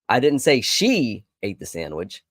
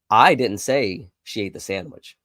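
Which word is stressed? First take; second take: she; I. First: The word "she" carries the main stress. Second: The word "I" carries the main stress. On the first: Someone other than her ate it. "I told you it was somebody else" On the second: Someone else said it. "It must have been somebody else that said it"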